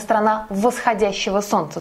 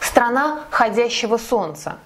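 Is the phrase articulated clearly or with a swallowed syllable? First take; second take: clear; swallowed. First: Every syllable is clearly pronounced. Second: The syllable 'вос' is swallowed and dropped. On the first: The speaker calls it right. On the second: The speaker calls it wrong.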